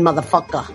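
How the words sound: The ending is said as an 'a' sound.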